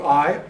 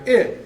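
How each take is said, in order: First: I drawn out as the eye sound; slow long I like eye. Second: I clipped short as in it, higher and louder. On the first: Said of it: "There's long I". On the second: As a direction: snap a short I like in it. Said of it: "there's a short I". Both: Shown as a demonstration.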